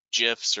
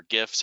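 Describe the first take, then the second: First: "gifs" with a soft g, like "jifs"; soft-g pronunciation. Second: "gifs" with a hard g, as in "gift"; hard-g pronunciation. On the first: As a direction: start "gifs" with a j sound. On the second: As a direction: start "gifs" with a hard g sound. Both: Shown as a demonstration. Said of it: "however you pronounce it".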